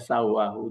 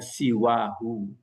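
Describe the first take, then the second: First: The first vowel is an 'a' sound. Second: The first vowel is an 'i' sound. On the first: The speaker calls it wrong. "jangan dibaca sawahu" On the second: The speaker calls it right. "jadi dibaca siwahu"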